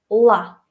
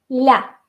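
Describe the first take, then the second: First: The L is hard and dark. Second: The L is soft and palatalized. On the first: "tiene que ser uh, nuestra versión dura de la L" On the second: "tiene que ser más blanda aún"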